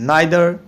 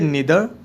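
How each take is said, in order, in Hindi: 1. पहला स्वर 'eye' जैसा है। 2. पहला स्वर 'ee' जैसा है।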